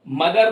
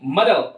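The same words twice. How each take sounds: First: The final r sound is said fully and clearly. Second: The final r sound is quick and barely heard. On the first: The speaker calls it wrong. "मदर साफ रा नहीं आएगा" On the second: The speaker calls it right. "रा बोलना तो है लेकिन इस तरह से बोलना है कि बहुत जल्दी से"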